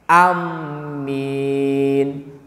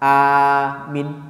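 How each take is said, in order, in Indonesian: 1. Bunyi m ditasydid dan vokal terakhir panjang. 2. Vokal pertama panjang, yang terakhir pendek. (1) "A-nya pendek, dimasuk ditasdidkan ke min, ke mim yang panjang" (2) "Aminnya A-nya panjang, tapi minnya singkat"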